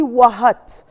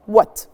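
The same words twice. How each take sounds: First: WHAT split as "wa-HAT" with a sounded H; H wrongly pronounced. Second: WHAT as one syllable "wot", no H at all; silent H. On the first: Teacher shows pupils the mistake, H wrongly sounded. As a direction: say "what" wrongly, breathing an H in the middle. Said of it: "I don't say what. I don't pronounce the H". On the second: Teacher shows pupils the right way, silent H. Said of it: "مش بنطق ال H. بقول". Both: Shown as a demonstration.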